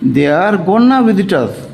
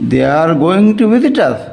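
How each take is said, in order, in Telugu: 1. 'Going to' ఒకే పదం, 'gonna', గా తగ్గించబడుతుంది. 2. 'Going to' రెండు పూర్తి పదాలుగా అంటారు.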